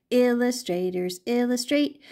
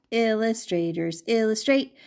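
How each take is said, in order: Both takes have the same delivery.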